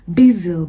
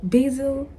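First: "Basil" said as BEE-zil, long ee; basil, one way. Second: "Basil" said as BAY-zil, long ay; basil, the other way. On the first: Offering viewers the first way to say basil. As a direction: tries out "Basil" with a long ee vowel. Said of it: "Is it basil or basil?". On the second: Offering viewers the other way to say basil. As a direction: tries out "Basil" with a long ay vowel. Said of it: "or basil?". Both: Shown as a demonstration.

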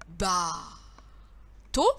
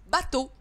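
First: "Bateau" split, very long first syllable, pause, then the second; two separate syllables. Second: Said in the usual way. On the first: Shown as a demonstration. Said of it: "je les colle". (« Bateau » découpé lentement en deux syllabes) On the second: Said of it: "ça fait le mot".

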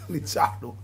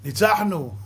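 First: Said in the usual way. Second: A fan's cheer, imitated with a laugh; mock victory cheer. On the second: Preacher mocking a fan cheering a win, mock cheer. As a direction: crow it like a football fan.

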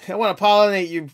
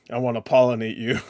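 First: Camp it up on the second try; silly high voice. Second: Said in the usual way. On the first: Pretend. Repeating the pollinate line to chat, high and giggly.

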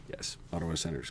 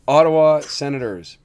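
First: Whisper. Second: Proud team name. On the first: Real, not acted. Fan whispering team name hoarsely. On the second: Shown as a demonstration. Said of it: "you're gonna miss this demonstration".

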